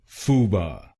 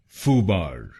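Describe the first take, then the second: First: It is said with a British accent. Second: It is said with an American accent.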